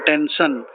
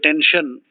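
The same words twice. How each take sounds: First: The sh sound is replaced by another sound. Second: The middle consonant is a clear sh sound. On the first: "some people cannot say sha" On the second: "ask them to say tension"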